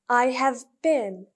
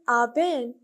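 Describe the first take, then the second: First: All three words are said fully and separately. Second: The words are said very fast and heavily reduced. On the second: "when they are speaking even faster"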